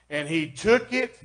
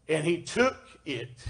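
First: Said in the usual way. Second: TOOK slowly and deliberately drawn out; stress on TOOK. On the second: Shown as a demonstration. Preacher re-reading the verse to make his point, stress on TOOK. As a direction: lean on the word "took", taking your time. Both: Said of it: "I'm gonna just stress on that".

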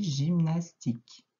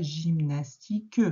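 First: Gymnastique said slowly with a silent final e, ending on k; gymnastique, slow, ending cleanly on the k sound; correct pronunciation. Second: Gymnastique with the final e sounded, gym-nas-ti-queu; wrong pronunciation. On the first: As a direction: model the right way, gymnastique with no final e. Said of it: "on dit". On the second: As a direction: say gymnastique the wrong way, voicing the last e. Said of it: "on ne dit pas". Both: Shown as a demonstration.

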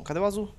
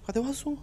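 First: Said in the usual way. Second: "Cadê o azul?" asked high with a sharp rise on "azul"; high rising question. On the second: Real, not acted. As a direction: ask "Cadê o azul?" again, much higher and rising on "azul". Repeats search, impatient.

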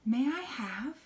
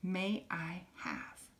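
First: "May I have" higher with rising end; cheerful asking tune; bright rising question. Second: "May I have" softer and slow; a quiet, polite "May I have"; soft model question. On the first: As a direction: lift it up at the end. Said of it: "Can you say that with me". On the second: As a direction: ask gently and slowly. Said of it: "the last one is". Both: Shown as a demonstration.

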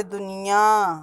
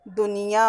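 First: दुनिया with a nasalised final "aan"; wrong pronunciation. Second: दुनिया with a plain oral final "aa"; correct pronunciation. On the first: Teacher shows pupils' nasal mistake, nasal-ending दुनिया. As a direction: hum the last vowel of दुनिया through the nose. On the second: Teacher removes the nasal dot, oral-ending दुनिया. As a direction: keep the nose out of दुनिया. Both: Shown as a demonstration. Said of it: "चंद्रबिंदी नहीं होगी".

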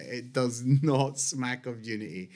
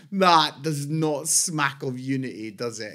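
First: "not" leaned on in a lower, softer repeat; dry repeat with weight on "not"; stress on not. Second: Said in the usual way. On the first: Shown as a demonstration. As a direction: hit the word "not" as you repeat it.

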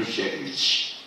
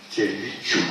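First: Servici said quietly without the final u; the clipped form to avoid; wrong form. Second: Serviciu said quietly with its full ending; careful quiet Serviciu; correct form. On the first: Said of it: "Nu servici". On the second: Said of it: "cum se spune corect?". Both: Shown as a demonstration.

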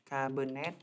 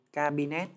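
First: "Cabernet" with a schwa in the middle, ca-bơ-nét; careful pronunciation. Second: "Cabernet" said loosely as ca-bi-nét; relaxed Vietnamese-style "Cabernet", middle vowel as i; casual pronunciation. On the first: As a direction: correct yourself to a more standard "Cabernet", middle vowel as uh. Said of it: "thầy phát âm nó thoải mái thôi". ("Cabernet" đọc chuẩn hơn, ca-bơ-nét) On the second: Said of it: "nhiều khi thầy phát âm nó thoải mái". ("Cabernet" đọc thoải mái kiểu ca-bi-nét) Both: Shown as a demonstration.

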